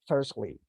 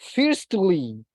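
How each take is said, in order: First: The t in the middle is silent. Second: The t in the middle is clearly pronounced. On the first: The speaker calls it right. "we don't pronounce the letter T" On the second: The speaker calls it wrong. "We don't say firstly"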